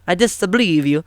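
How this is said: It is said in a put-on Italian accent.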